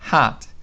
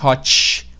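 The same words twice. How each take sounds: First: The vowel is like A and the T is faint. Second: The vowel is an O and the T is strong. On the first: The speaker calls it right. "o O é mais um, tem mais um som de A e o T é muito discreto" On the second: The speaker calls it wrong. "Com esse T ainda do português"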